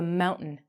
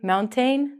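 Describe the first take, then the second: First: The T and the vowel after it are dropped. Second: The T and the vowel after it are pronounced. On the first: The speaker calls it right. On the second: The speaker calls it wrong.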